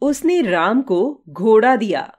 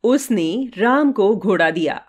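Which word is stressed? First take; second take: घोड़ा; उसने. First: The stress falls on the word घोड़ा. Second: The stress falls on the word उसने. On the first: A horse was given, not anything else. "घोड़ा दिया, कुछ और नहीं।" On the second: That person gave it, not anyone else. "उसने दिया, किसी अन्य ने नहीं।"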